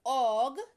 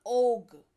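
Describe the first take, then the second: First: Slow drawn-out ओग with the lower lip curled inward. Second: Slow ओग with both lips rounded and pushed outward. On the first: Teacher showing students the first way to say ओग, lip tucked in. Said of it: "नीचे वाला होंठ जो है मुड़ करके थोड़ा अंदर की ओर जाएगा". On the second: Teacher showing students the second way to say ओग, lips pushed out. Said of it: "दोनों होंठ जो है बोलते वक्त बाहर की ओर थोड़ा सा आएंगे". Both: Shown as a demonstration.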